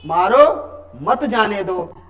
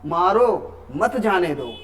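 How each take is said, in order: First: There is a pause after 'मारो'. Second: There is a pause after 'मारो'.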